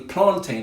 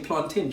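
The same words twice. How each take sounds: First: The ending does not sound like mountain's. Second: The ending sounds like the end of mountain. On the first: This is how it is said in certain African countries. "I don't say plantain" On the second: This is how it is said in the Caribbean. "I just say plantain, just like I say a mountain and fountain"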